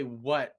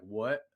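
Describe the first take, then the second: First: A louder twangy "What?"; mock the drawled "What?"; "What?" in a Southern drawl, a touch louder. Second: A dopey Southern "What?" with a rising end; "What?" drawled in a lazy Southern way. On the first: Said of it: "it sounds really stupid". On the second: Retold or imitated. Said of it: "it sounds really stupid when you go like".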